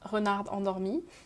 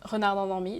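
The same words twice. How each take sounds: First: It is said with a French-sounding accent. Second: It is said with a plain English accent.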